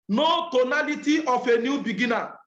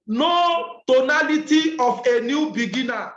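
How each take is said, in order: First: Said in the usual way. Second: "no tonality of a new beginner" slow and louder, each word weighed; slow emphatic statement. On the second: Shown as a demonstration. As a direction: drive "no" home slowly and firmly.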